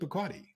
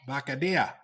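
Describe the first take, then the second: First: It is said with a plain American accent. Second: It is said with a Cuban Spanish accent. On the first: This is the usual way. "he never pronounced it Bacardi" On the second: This is how a Cuban friend said it. "How did he say it?"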